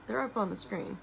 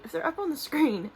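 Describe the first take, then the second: First: Said in the usual way. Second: Higher and louder, breezy whatever-happens tone; emphatic shrug. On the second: Real, not acted. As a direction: toss it off playfully, pitched up and punched out. Shrugging off uncertain screen edits.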